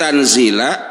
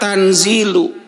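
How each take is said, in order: First: The word ends with an 'a' vowel. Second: The word ends with a 'u' vowel. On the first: The word is the object of a hidden verb. "Kalau dibaca nasab tanzila" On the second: The word is the predicate of a subject. "Sekarang bisa dibaca tanzilu"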